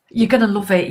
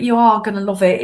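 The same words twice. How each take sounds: First: Said in the usual way. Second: "are" said out in full and leaned on; stress on ARE. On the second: Shown as a demonstration. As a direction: insist by landing on "are".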